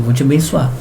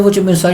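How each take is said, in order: First: Half-hearted. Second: Joyful. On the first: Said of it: "Meio assim, né?". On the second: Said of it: "já veio a alegria". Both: Retold or imitated.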